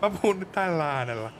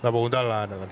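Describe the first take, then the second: First: Higher-pitched hero voice; put-on character voice. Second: Switched character voice. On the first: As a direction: demonstrate your higher character voice. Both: Shown as a demonstration.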